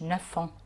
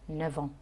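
First: An f sound links the two words. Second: A v sound links the two words. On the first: The speaker calls it wrong. "ما بقولش نفون" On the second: The speaker calls it right. "الاف بحولها لفي في النطق"

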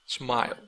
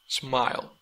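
No difference in how they are said.

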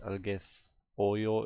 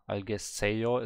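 First: The vowel before 'yo' is an 'eo' sound. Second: The vowel before 'yo' is an 'e' sound. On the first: The speaker calls it right. "but algesoyo is correct" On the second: The speaker calls it wrong. "Algeseyo is wrong"

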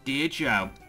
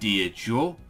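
First: It is said in his normal voice. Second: It is said in the professor's put-on voice.

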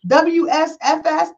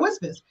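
First: The name is spelled out letter by letter. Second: The name is said as one word. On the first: The speaker calls it wrong. "you don't say it like PSFS" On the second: The speaker calls it right. "you say it Whispers"

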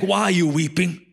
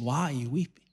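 First: It is said in a harsh, scolding tone. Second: It is said in a gentle, caring tone.

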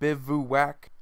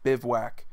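First: The word is said with three syllables. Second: The word is said with two syllables. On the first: "where you enunciate three syllables" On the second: "the other pronunciation that's just Bivouac"

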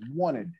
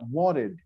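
First: The t is dropped, leaving only n. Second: The t is a quick flap sound. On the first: "tira o T e coloca só o som do N, assim, ó" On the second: "Você pode colocar o mesmo som no wanted, só que com o som desse T de beautiful"

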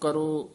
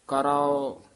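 First: The word ends in a single short o sound. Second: The word ends in a long aa followed by o. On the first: The speaker calls it wrong. "ਇਸ ਤਰ੍ਹਾਂ ਨਹੀਂ ਬੋਲਣਾ" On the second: The speaker calls it right. "ਇਸ ਤਰ੍ਹਾਂ ਉਚਾਰਨ ਕਰਨੇ ਹੈ"

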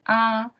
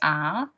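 First: The pitch stays high and level. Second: The pitch rises from middle to high. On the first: "The first tone would be R" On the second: "second one is R"

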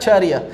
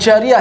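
First: The first sound is a voiced j. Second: The first sound is a voiceless ch. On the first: The speaker calls it right. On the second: The speaker calls it wrong.

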